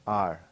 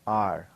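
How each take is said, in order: No difference in how they are said.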